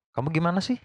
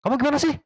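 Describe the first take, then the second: First: "Kamu gimana sih?" asked gently, only a mild lift on sih; just asking, no shouting; plain curious question without anger; calm question, not angry. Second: "Kamu gimana sih?" snapped much higher, pitch shooting up on sih; irritated demand, "sih" rising sharply; angry question. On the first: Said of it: "Tapi nggak marah, nggak teriak-teriak". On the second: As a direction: ask it annoyed, voice jumping up at the end. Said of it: "nanyanya sambil marah". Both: Shown as a demonstration.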